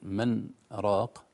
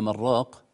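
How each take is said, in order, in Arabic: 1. توجد سكتة خفيفة تفصل بين الكلمتين. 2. الكلمتان متصلتان بلا سكتة. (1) "سكتة فوق النون" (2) "لو وصلنا وقيل من راق يمكن تشتبه مع المراق"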